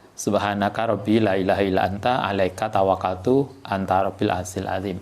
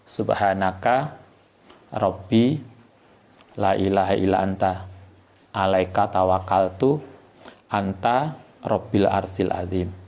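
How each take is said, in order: First: It is recited at a normal pace. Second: It is recited slowly and deliberately.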